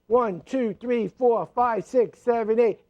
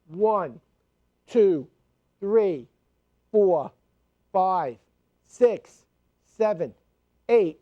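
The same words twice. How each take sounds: First: The counting is as fast as possible. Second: The counting is at a steady, moderate pace.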